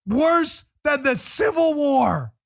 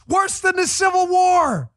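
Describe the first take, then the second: First: Mock dramatic drawl. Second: Loud, high sing-song shout, stretched slow; mock outrage. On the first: Repeats the slogan mockingly. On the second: Host mocking the Democrats' slogan with a loud sing-song shout. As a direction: belt the slogan out like a sarcastic chant.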